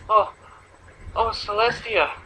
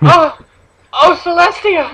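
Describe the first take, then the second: First: The moan sounds flat and unconvincing. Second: The moan sounds passionate and convincing.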